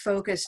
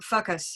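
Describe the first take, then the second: First: The first vowel is long, as in 'go'. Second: The first vowel is short, as in 'mustard'. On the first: The speaker calls it right. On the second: The speaker calls it wrong.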